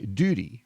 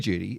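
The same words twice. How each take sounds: First: It is said with an American pronunciation. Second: It is said with an Australian pronunciation. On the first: "Americans say duty" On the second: "Aussies say duty"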